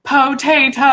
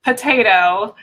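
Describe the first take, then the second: First: "potato" drawn out slowly, PO-TAY-TO; imitated hobbit potato. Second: "potato" run together as one everyday word; usual potato. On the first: Guest quotes a hobbit from Lord of the Rings, syllable-by-syllable potato. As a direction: stretch every syllable of "potato", with a full first O. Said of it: "but he says potato". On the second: Shown as a demonstration. Guest sets up a hobbit film quote, ordinary potato. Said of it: "one of the hobbits says".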